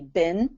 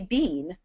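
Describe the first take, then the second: First: The word has an American pronunciation. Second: The word has a British pronunciation. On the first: "Here in the U S, we say bin for B, uh, B E E N" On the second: "In England, they say bean"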